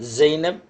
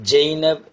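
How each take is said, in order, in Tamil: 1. இது அரபி ஒலிகளுடன் சொல்லப்படுகிறது. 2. இது தமிழ் ஒலிகளுடன் சொல்லப்படுகிறது. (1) "அரபியில் வழக்கம் போல்" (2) "இப்படி தான் தமிழில் சொல்ல முடியும்"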